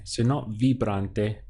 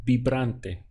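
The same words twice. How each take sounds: First: Vibrante with an English V sound; wrong English V. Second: Vibrante said as bibrante, slowly; Spanish B sound. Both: Shown as a demonstration. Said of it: "V I has a B sound".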